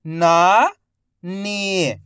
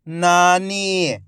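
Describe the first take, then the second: First: "नानी" split into ना, pause, नी, each drawn out; syllable by syllable. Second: "नानी" joined as one word, long vowels; syllables blended. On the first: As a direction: sound out "नानी" slowly, ना rising, नी falling. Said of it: "एक एक अक्षर का उच्चारण". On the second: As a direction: say "नानी" in one connected stretch. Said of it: "तो मिलके बन जाएगा". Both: Shown as a demonstration.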